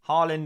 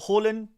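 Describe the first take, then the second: First: Said the anglicised way, like an English word. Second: Said the Norwegian way, with a soft final D. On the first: This is the version used for branding outside Norway. The speaker calls it wrong. "an anglicised uh, butchering of the name" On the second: This is how the name is said in its home country. The speaker calls it right. "it's kind of soft D at the end there, is the Norwegian pronunciation"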